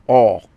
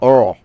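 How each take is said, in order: First: The word is said without an R sound. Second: The word is said with an R sound. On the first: "it was more like all" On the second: "there's kind of R"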